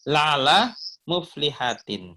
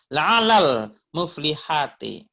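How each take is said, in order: First: No extra l sound links the two words. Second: An extra l sound links the two words. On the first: The speaker calls it right. "usahakan ya sebentar ya. La'ala muflihatin gitu" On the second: The speaker calls it wrong. "Bedakan dengan"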